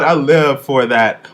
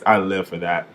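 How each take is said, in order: First: Loud, slowed fan rave; excited gush. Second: Said in the usual way. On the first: Retold or imitated. Reviewer acting her own thrilled reaction, loud and slow. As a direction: savour each word like a thrilled fan. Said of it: "I'm like".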